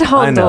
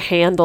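First: The name is said in a non-American way. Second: The name is said in the American way. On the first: "I said Handel. / you're correct. We just don't say it that way in America" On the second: "We say Handel"

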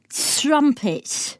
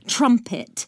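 First: The T is soft and hissing. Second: The T is crisp and sharp. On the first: "she has a more like tss, tss" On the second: "they're not a sharp T, t like T"

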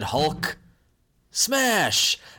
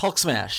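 First: A long pause separates the two words. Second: The two words run together without pause. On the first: The speaker calls it wrong. "There was too much of a pause between Hulk and smash" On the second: The speaker calls it right. "it should be just Hulk smash"

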